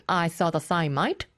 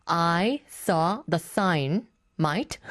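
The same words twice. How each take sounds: First: Light imitation of an Australian accent; Samantha. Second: Very slow repeat, word by word; Samantha. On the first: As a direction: repeat it with a hint of put-on Aussie. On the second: Retold or imitated. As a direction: space out I... SAW... THE SIGN... mate as a clue. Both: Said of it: "to repeat what Samantha said".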